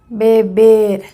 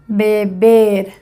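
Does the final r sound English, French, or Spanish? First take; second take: Spanish; Spanish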